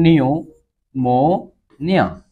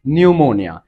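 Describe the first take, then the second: First: pneumonia very slow, with gaps between নিউ, মো and নিয়া; syllable by syllable. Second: Said in the usual way. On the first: Shown as a demonstration. Teacher helping students avoid spelling mistakes, pneumonia very slowly syllable by syllable. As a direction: draw out and separate each syllable of pneumonia. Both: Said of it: "syllable ভাগ করে করে পড়বা".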